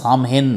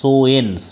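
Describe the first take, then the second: First: The middle has a clear m sound. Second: The middle is a w-like glide, no m. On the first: The speaker calls it wrong. "সামহেন নয়" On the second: The speaker calls it right. "উচ্চারণটা প্রোনাউন্সিয়েশনটা হবে সোয়েন"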